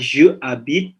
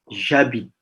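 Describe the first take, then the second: First: The vowel of je is fully pronounced. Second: The vowel of je is dropped and joined. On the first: The speaker calls it wrong. "on dit pas je habite" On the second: The speaker calls it right. "mais ja, j'habite"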